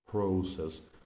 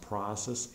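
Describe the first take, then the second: First: It is said with a British pronunciation. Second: It is said with an American pronunciation. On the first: "in British and in, by some Canadian speak, speakers it can be pronounced as process" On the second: "pronounced process in American English"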